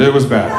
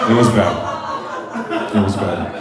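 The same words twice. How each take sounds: First: Said in the usual way. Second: A dragged-out low repeat; slow, low, laughing drag. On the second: Shown as a demonstration. Comic milking the line for the crowd, low and slow. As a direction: drop the pitch and stretch it, chuckling.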